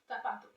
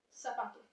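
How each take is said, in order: First: The z is not sounded like an s. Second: The z is sounded like an s. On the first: This is how it is said in some regions. "in some places it is always pronounced as the voice is fricative" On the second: This is how it is said in Latin America. "in Latin American Spanish, it is pronounced like the s"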